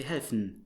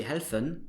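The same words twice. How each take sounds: First: "helfen" as "helfn", with no E before the n; dropped vowel. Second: "helfen" with the E clearly sounded; full final vowel. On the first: Teacher showing spoken German, final vowel dropped. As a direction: run the f straight into n in "helfen". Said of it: "So it dropped the vowel". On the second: Teacher showing what you don't say, E pronounced. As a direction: say "helfen" as "hel-fen", two full syllables. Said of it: "you would not produce the E". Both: Shown as a demonstration.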